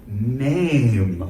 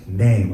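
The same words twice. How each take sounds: First: The word is said slowly. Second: The word is said at normal speed.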